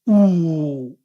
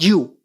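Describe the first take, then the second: First: A pure oo vowel with no glide. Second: The vowel starts with a y-glide. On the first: The speaker calls it right. "It's just ooh" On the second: The speaker calls it wrong. "not you"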